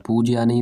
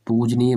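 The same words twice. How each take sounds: First: पूजनीय as "pooj-yaniy"; wrong vowel form. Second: पूजनीय as "pooj-neey"; correct form. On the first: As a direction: slip a y after the j in पूजनीय. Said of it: "नहीं होता है भाई". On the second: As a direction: join j straight to "neey" in पूजनीय. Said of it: "मेरा शुद्ध वाक्य होता है". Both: Shown as a demonstration.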